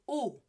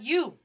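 First: The vowel is a pure oo sound. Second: The vowel begins with a y sound. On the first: The speaker calls it right. "This is U" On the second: The speaker calls it wrong. "This is not you"

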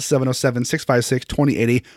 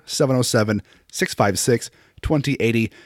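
First: The number is said at a normal pace. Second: The number is said more slowly.

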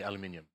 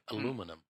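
First: It is said the British way, as aluminium. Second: It is said the American way, as aluminum. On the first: This is the speaker's own usual form. "Well I say aluminium" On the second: This is the form Americans use. "Americans say aluminum"

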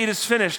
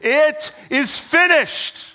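First: It is said in a sad, weak voice. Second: It is said in a loud, triumphant voice. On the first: It sounds like defeat. The speaker calls it wrong. "I would read it with a sad, weak voice" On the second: It sounds like a victory cry. The speaker calls it right. "he cries out with a loud voice"

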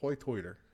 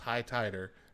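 First: The vowel in 'high' sounds like 'oy'. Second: The vowel in 'high' is the standard one. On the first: "That's how they pronounce it" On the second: "No, it's high-tider"

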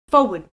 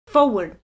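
Both takes have the same delivery.

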